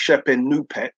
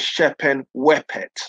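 First: The second word is said with a u sound. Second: The second word is said with a w sound. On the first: This is the older scholarly reading. "Older scholars say it's pronounced as a U" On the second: This is the younger scholarly reading. "Younger scholars think it's pronounced as a W"

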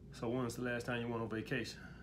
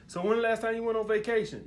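First: It is said calm, low and laid back. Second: It is said high-pitched and friendly.

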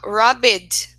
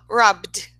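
First: The ending is said as an extra syllable. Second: The ending is said as just a d sound. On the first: The speaker calls it wrong. "Ao invés de falar robbed" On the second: The speaker calls it right. "a gente fala robbed"

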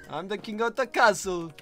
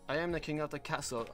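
First: It is spoken in a put-on foreign accent. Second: It is spoken in the speaker's natural accent.

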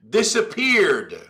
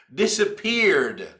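Both takes have the same delivery.

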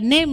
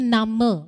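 First: The final e is silent, English style. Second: The final e is pronounced as its own vowel. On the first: The speaker calls it wrong. "bukan name ya" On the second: The speaker calls it right. "bahasa Jermannya name"

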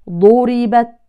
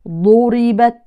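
Both takes have the same delivery.

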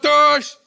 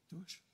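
First: It is said in a harsh, mocking tone. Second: It is said in a gentle, tender tone. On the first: The speaker is challenging and scornful. The speaker calls it wrong. "certains pensent que Jésus dit" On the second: The speaker understands and invites kindly. The speaker calls it right. "Jésus a dit à Thomas"

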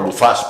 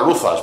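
First: The stress is on the last syllable. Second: The stress is on the first syllable. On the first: The speaker calls it right. "Pues no, Luzas, porque lleva acento en la A" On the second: The speaker calls it wrong. "hay gente que dice, Luzas"

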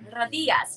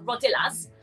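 First: The double L is said as a Y. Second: The double L is said as an L. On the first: The speaker calls it right. "It's like a Y sound" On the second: The speaker calls it wrong. "rather than saying rodillas"

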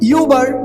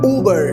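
First: The word begins with a 'you' sound. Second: The word begins with an 'oo' sound. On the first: The speaker calls it wrong. "But not that" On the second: The speaker calls it right. "We pronounce this word as উবার"

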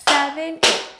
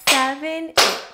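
No difference in how they are said.

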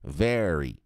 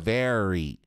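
First: The r sounds like a countryside caipira r. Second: The r sounds like a countryside caipira r.

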